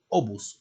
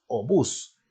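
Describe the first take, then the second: First: "obús" stressed wrongly on the first syllable, O-bus; acento mal puesto. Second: "obús" stressed on the last syllable, o-BÚS, drawn out slowly; acento agudo. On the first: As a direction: say "obús" with the stress moved onto the O. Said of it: "no dices tú obús". ("obús" con la fuerza de voz en la primera sílaba) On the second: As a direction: slowly lean on the final "ús" of "obús". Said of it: "dices obús". ("obús" con la fuerza de voz en la última sílaba, lento) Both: Shown as a demonstration.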